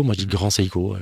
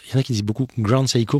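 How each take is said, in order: First: "Grand Seiko" the French way, "Sei" as in "seize"; "Seiko" said in plain French, "Sé-ko"; my own French "Grand Seiko", a little lower; French-style Grand Seiko. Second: "Grand Seiko" with a Japanese "Sai-ko" sound; "Seiko" said as "Saiko", as others say it; Japanese-style Grand Seiko. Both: Shown as a demonstration. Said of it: "je fais à la française".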